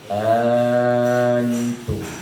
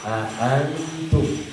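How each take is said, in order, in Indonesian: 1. Hamzah kedua tidak terucap dengan jelas. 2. Dua hamzah terpisah terucap dengan jelas. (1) "tidak ada hamzahnya" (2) "tegas hamzahnya dua"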